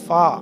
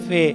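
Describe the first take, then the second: First: The letter name ends in an 'ah' vowel. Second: The letter name ends in an 'ay' vowel. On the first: This is the new way of naming the letter. "तो इसको हम अलिफ के साथ पढ़ेंगे" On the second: This is the old way of naming the letter. "अब ये फे पढ़ते थे हम"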